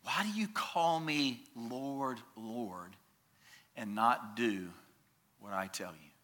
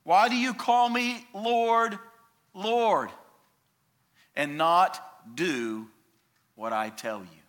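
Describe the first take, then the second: First: Quiet reread. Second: Raised, pleading question that sinks at the end; voicing Jesus. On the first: Shown as a demonstration. Preacher rereading Jesus' question to the church, hushed. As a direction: let the words sink in softly. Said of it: "When I hear those words". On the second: Preacher voicing Jesus asking his followers, searching. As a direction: ask it as Jesus would, searching. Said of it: "He says this".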